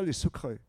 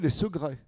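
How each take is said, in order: First: The word begins with a K sound. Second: The word begins with a G sound. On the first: This is how the word was not said in the past. "on ne disait pas les secrets" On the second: This is how the word was said in the past. "on disait les secrets"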